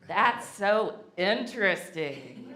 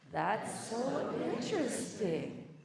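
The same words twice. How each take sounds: First: It is said with a dismissive, judging intonation. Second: It is said with a warm, curious intonation. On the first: The listener is quietly judging the other person. The speaker calls it wrong. "you cannot say it the way we say in the South" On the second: The listener truly wonders where the other person is coming from. The speaker calls it right. "Let's say it the good way"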